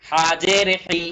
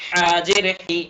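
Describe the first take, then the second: No difference in how they are said.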